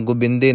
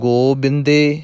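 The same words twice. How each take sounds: First: The first vowel is short. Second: The first vowel is long. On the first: "ਨਾ ਔਂਕੜ ਜਿੰਨੀ ਛੋਟੀ" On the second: "ਨਾ ਤਾਂ ਹੋੜੇ ਜਿੰਨੀ ਲੰਬੀ"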